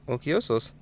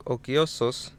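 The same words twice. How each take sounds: The two takes are said the same way.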